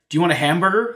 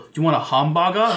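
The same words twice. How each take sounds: First: It is said in a plain American English accent. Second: It is said in a Japanese-style English accent. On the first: The listener does not understand it. The speaker calls it wrong. "They're going to look at you and go, what?" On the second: The listener understands it. The speaker calls it right. "if you don't pronounce it with that sort of accent, it's like right over their head"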